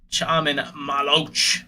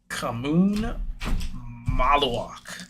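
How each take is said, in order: First: The first name starts with a 'sh' sound. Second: The first name starts with a 'k' sound. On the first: The speaker calls it wrong. "I've been calling him Chaman" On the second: The speaker calls it right. "that was pretty much on it"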